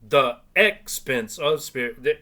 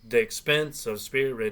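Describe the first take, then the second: First: 'The' is said as its own separate syllable. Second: 'The' is merged into 'expense' without a separate syllable. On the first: The speaker calls it wrong. "It's not the expense of spirit" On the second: The speaker calls it right. "it's T H apostrophe E X. So that that's an unstressed syllable"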